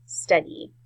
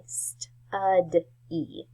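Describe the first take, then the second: First: Said in the usual way. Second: "st-ud-e" pulled apart into its sounds. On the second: Shown as a demonstration. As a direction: say "st-ud-e" slowly, one sound at a time. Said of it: "there's that E sound".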